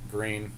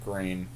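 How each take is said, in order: Both takes have the same delivery.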